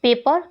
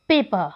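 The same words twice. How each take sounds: First: Said in the usual way. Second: पेपर slowly, as "pay-puh" without the र; silent final r. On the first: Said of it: "जिसकी transcription है वो यही है". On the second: Shown as a demonstration. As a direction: drop the last र of पेपर. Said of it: "जो र sound है last में, उसको ignore". (पेपर को "पेपा" जैसा, बिना र के)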